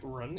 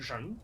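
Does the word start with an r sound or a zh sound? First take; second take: r sound; zh sound. First: The word begins with an r sound. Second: The word begins with a zh sound. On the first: This is the standard Chinese pronunciation. "what in Pinyin is normally an R" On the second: This is the Beijing dialect pronunciation. "in Beijing dialect that is more of a zh"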